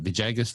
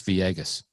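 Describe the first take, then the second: First: Mock American mispronunciation; American Vijagas. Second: "Viegas" said "vee-AY-gas" with no J; "Viegas" with a Spanish vowel glide; correct Viegas. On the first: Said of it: "Why do the Americans go Vijagas?". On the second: Shown as a demonstration.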